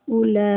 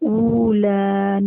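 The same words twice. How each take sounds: First: The first vowel is kept short. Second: The first vowel is drawn out long. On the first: The speaker calls it right. "बल्कि उला" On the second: The speaker calls it wrong. "हम उला नहीं पढ़ेंगे"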